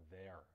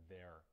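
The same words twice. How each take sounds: No difference in how they are said.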